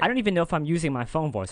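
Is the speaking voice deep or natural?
natural. The voice is at its natural pitch.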